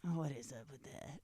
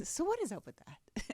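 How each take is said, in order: First: Low, soft mock musing; lower, hushed take on her catchphrase; imitating co-host's delivery. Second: Higher, upbeat show-title delivery; own catchphrase delivery. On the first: Host mimicking how co-host says the show's name, low and soft. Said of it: "you say it like that". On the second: Shown as a demonstration. Host showing how she says the show's name, higher and lighter. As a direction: pitch it up, lightly, like a show opener. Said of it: "And I say it like that".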